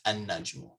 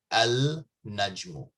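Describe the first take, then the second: First: An-najmu with a doubled n, no l; right an-najmu. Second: Al-najmu with the l sounded; wrong al-najmu. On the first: Teacher gives students the correct an-najmu. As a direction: say an-najmu, lam silent. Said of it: "it's an-najmu". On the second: Teacher shows students the wrong al-najmu. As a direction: say al-najmu with a clear lam. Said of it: "You don't say al-najmu". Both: Shown as a demonstration.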